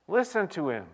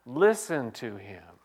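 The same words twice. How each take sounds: First: Listen to him lifted higher with force on listen; urgent repeat. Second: Said in the usual way. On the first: Shown as a demonstration. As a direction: repeat it as a plea, listen raised. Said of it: "Would you just listen to him?".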